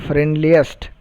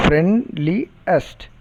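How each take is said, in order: First: Said in the usual way. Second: "Friendliest" broken as friend, li, est, with pauses; three separate syllables. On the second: Shown as a demonstration. Teacher showing how three syllables are produced, "Friendliest" split syllable by syllable. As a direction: say "Friendliest" in three spaced beats. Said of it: "We produce three syllables".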